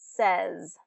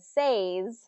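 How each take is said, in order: First: The vowel is a short eh sound. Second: The vowel follows the spelling, not a short eh. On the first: The speaker calls it right. "it is more of a short eh pronunciation" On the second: The speaker calls it wrong. "the way it's spelled"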